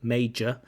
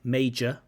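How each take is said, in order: First: The middle consonant is a j sound. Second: The same.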